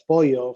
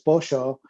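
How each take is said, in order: First: It is said with a Mexican Spanish pronunciation. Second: It is said with a Uruguayan Spanish pronunciation. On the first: The speaker calls it wrong. "my wife will say" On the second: The speaker calls it right. "I'll say, "No, it's pollo.""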